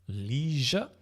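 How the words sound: It is said with an American pronunciation. "I think in America they say leisure"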